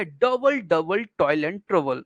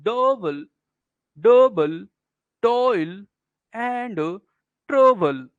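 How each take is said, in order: First: Said in the usual way. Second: "Double, double toil and trouble" one word at a time, with pauses; slow trochaic beat, "DOU-ble... DOU-ble... toil... and... TROU-ble"; stressed-unstressed scansion. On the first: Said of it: "जैसे क्या हुआ भैया". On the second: Shown as a demonstration. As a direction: punch and stretch the first syllable of "double" and "trouble". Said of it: "इसको जब ऐसे पढ़ेंगे ना".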